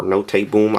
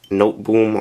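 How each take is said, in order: First: "Note" said as "no-tay", then Boom; two-syllable Note. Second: "Note" in one syllable, like "noht", then Boom. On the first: Reviewer giving the alternative name, Note said "no-tay". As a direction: sound the e of Note as "ay". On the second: Reviewer reading the mud flaps, Note said as one syllable. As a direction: say Note with a silent e. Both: Shown as a demonstration. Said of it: "I'm just gonna call it Note Boom".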